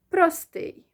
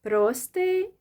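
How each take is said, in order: First: "простий" with weight on ТИЙ, falling at the end; stress on last syllable. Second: "Простий" with a long, loud ПРО, rising at the end; stress on first syllable. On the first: Teacher recaps the other option, last syllable stressed. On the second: Teacher recaps both options, first syllable stressed. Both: Shown as a demonstration. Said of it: "the first syllable or the last one".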